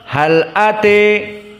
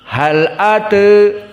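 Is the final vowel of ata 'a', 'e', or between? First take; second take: e; between. First: The final vowel is fully tilted to e. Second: The final vowel is between a and e. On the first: "Al-Kisai dijadikan imalah al-kubra" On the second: "Warsh an-Nafi' dibaca dengan taklil"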